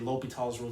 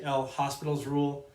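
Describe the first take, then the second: First: The H and S are not pronounced. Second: The H and S are pronounced. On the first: The speaker calls it right. "The H and the uh, S are silent" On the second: The speaker calls it wrong. "that's not how you would pronounce his name"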